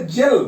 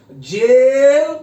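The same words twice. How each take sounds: First: Said in the usual way. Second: जेल with its ए drawn out very long and loud; long vowel in जेल. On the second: Shown as a demonstration. Teacher contrasting vowel length, जेल with a long drawn ए. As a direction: stretch the ए in जेल far out. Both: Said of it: "तो ये वाला ए होगा".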